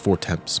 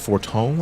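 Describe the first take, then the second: First: The name is said as English 'four temps'. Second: The name is said the French way, 'forton'. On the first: The speaker calls it wrong. "originally I used to pronounce it as Four Temps" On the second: The speaker calls it right. "because it's French. So it's like it's Forton"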